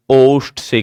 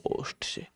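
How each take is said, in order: First: Said in the usual way. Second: Breathy whisper, no voice; whispered answer. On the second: Shown as a demonstration. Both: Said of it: "कहां से होगा?".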